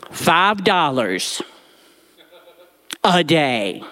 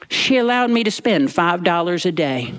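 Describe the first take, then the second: First: "Five dollars" drawn out slowly, then "a day" with a rueful laugh; "Five" stressed and stretched, "a day" laughed out. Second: Said in the usual way. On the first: Shown as a demonstration. The boy repeats his tiny daily allowance, slow with "Five" stressed.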